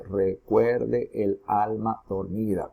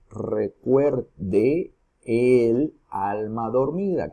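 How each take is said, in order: First: "recuerde el alma dormida" slowly split into separate syllables, "de" apart from "el"; "recuerde el alma dormida" in slow, separated syllables. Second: "recuerde el alma dormida" very slow, linking "de" and "el" as one syllable; slow, drawn-out "recuerde el alma dormida" with "de‿el" joined; synalepha joining. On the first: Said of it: "empezamos a separar sílabas". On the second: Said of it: "si aplicamos la sinalefa". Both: Shown as a demonstration.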